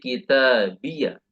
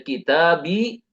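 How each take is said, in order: First: The word ends with an added 'ya' syllable. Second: The word ends on a short plain 'i'. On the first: "atau dibaca fathah sehingga menjadi kitabiyah" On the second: "boleh dia sukun sehingga cukup dibaca kitabi"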